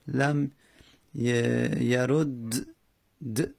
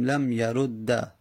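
First: The two d sounds stay separate, with no vowel. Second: The two d sounds merge, ending in an a vowel. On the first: The speaker calls it wrong. "دو تا دال حرف همجنس هر دو ساکنن. خب نمیشه" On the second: The speaker calls it right. "ادغام بکنیم و آخرش رو فتحه بدیم"

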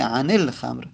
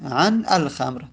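First: An 'i' vowel links the two words. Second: The words are said without a linking vowel. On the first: The speaker calls it right. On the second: The speaker calls it wrong.

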